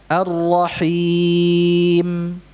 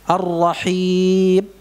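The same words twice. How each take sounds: First: The final m is held without cutting. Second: The final m is cut off abruptly. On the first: The speaker calls it right. "Harusnya gimana?" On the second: The speaker calls it wrong. "macet gitu ya"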